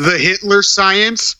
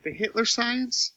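First: Full voice, high and slow; slow, high question at normal volume. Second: Tiny, high, hushed voice; barely audible high-pitched question; very quiet. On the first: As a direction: say it up high and stretch it out. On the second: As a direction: ask it very softly, pitched up high. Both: Real, not acted. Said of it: "Why are you so quiet?".

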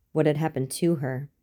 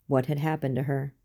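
First: "to" stressed against the rest. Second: Said in the usual way. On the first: A narrator's reading. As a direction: lean on the word "to", not "happened". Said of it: "what could have been done to her".

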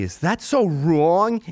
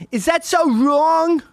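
First: Drawn-out rhetorical plea, rising at the end; pleading question. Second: Very high, loud, drawn-out mock plea; hammed-up wail. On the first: Acted. Comic to audience about wanting friends happy, pleading question. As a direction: ask it as an appeal, slightly higher. Repeats own plea, escalating. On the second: Comic repeating his plea to the audience, hammed-up wail. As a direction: wail it out as an exaggerated protest.

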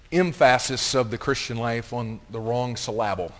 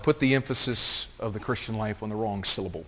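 First: "emphasis" as em-FASS-is, "syllable" as sil-LAB-le; misplaced stress. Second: Said in the usual way. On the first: Shown as a demonstration. Deliberate misstressing joke, then said normally. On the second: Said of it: "if you wanna know how to spell that".

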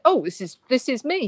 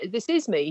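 First: Rising, higher, a little delighted; quoting the security guy's first reaction, rising in surprise; amused surprise. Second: "This is me" said firmly with a falling end; settled statement. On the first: Security guy hearing his own script, surprised and pleased. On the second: Security guy confirming the script is him, firm and falling. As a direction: land it as a final, satisfied verdict. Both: Retold or imitated. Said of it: "Just with a bit more punctuation".

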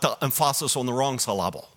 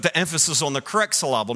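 First: "emphasis" as em-FAH-sis, "syllable" as suh-LAH-bul; deliberately misplaced stress on "emphasis" and "syllable"; wrong-syllable stress. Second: Said in the usual way. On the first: Shown as a demonstration. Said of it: "not the emphasis on the wrong syllable". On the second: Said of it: "put the emphasis on the correct syllable".

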